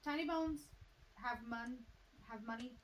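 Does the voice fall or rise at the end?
fall. The voice falls at the end. It is a statement. The speaker calls it wrong. "you stated Tiny Bones have money"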